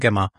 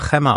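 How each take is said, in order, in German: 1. Er beginnt mit einem einfachen G-artigen Laut. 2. Er beginnt mit einem rauen, kehligen, H-ähnlichen Laut. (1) "oder sagt man Gemma?" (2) "also im Spanischen Chrema. Würde man das ja Chrema aussprechen"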